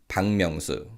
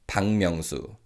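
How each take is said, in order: No difference in how they are said.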